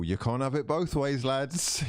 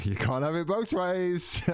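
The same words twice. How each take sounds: First: Said in the usual way. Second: High laughing repeat of the line. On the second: Real, not acted. Repeating his own jab to the chat, laughing. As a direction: laugh through it, pitched up.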